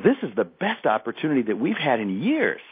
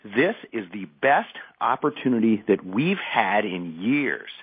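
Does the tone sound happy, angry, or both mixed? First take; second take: happy; angry. First: It is said with a happy tone. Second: It is said with a touch of anger.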